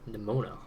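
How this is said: The name is pronounced with American English sounds. "As an American, I automatically Americanize"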